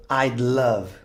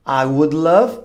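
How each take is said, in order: First: "I'd love" squeezed into one syllable, ajd; contracted "I'd love", ajd lov; contracted form. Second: "I would love" with would said in full; full uncontracted "I would love"; full form. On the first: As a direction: clip would down to a d sound, "I'd". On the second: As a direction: spell out "would" as its own word, wud. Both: Shown as a demonstration. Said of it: "Esse would vira apóstrofe D".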